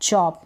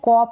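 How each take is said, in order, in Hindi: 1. यह शब्द ch की आवाज़ से शुरू होता है। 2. यह शब्द k की आवाज़ से शुरू होता है। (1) "सी एच च चॉप" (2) "इसको कॉप ना पढ़ें"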